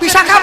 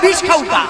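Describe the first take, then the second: First: The name is said as bi-sha-kha. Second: The name is said as bish khau-ka. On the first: The speaker calls it right. "সে বিশাখা বলে না" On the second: The speaker calls it wrong. "তার আবার উচ্চারণ সব ভুল"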